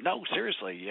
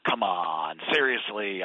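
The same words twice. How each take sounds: First: Calm sincere answer; earnest reply. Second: Low, louder scoffing doubt; mock disbelief, a bit lower and louder; skeptical scoff. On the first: Retold or imitated. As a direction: insist gently that you mean it. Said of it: "and I said". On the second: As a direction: brush it off like a doubter. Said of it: "and they're skeptical".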